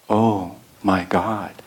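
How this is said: It is said softly, as a reverent embrace.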